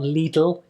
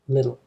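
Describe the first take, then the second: First: The first vowel is a tense, tight sound. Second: The first vowel is a short, relaxed sound. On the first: The speaker calls it wrong. "Be careful not to say li, it's not little" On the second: The speaker calls it right. "again a relaxed sound"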